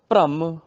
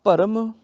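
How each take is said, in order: First: ਭ੍ਰਮ said "bhramm", first consonant joined to r; half r. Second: ਭਰਮ said "bha-ram", vowel before the r; full r. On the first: Teacher gives the contrast, ਭ੍ਰਮ as "bhramm". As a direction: run straight into the r in ਭ੍ਰਮ. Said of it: "ਰਾਰਾ ਅੱਧਾ ਹੋ ਗਿਆ". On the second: Teacher gives an example, ਭਰਮ as "bharam". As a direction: give ਭਰਮ a whole r. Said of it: "ਰਾਰਾ ਪੂਰਾ ਹੋ ਗਿਆ". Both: Shown as a demonstration.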